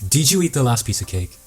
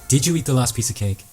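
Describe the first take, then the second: No difference in how they are said.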